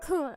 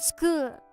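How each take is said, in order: First: The word starts without any s sound. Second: The word starts with a clear s sound.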